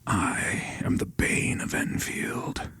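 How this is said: It is said in a villainous whisper.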